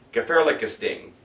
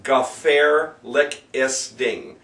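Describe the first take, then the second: First: Said in the usual way. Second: Very slow "Gefährliches Ding", syllable by syllable; broken into syllables. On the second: Shown as a demonstration. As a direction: sound out "Gefährliches Ding" piece by piece. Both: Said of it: "this is a monster".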